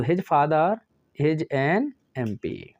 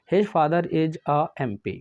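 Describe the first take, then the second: First: "an MP" read slowly and evenly, word by word; slow corrected dictation. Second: "a MP" read slowly and evenly as in the question; slow dictation. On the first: Teacher dictating the corrected answer, slow and deliberate. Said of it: "एन". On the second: Teacher reading out the question sentence, slow and deliberate. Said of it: "sir एम हमारा तो क्या है". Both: Shown as a demonstration.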